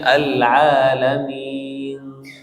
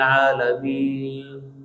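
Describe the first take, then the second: First: The final n is clearly pronounced. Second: The final n is faint and swallowed. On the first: The speaker calls it right. "harus kita jelaskan" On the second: The speaker calls it wrong. "Nggak jelas mana huruf nun, hilang kan?"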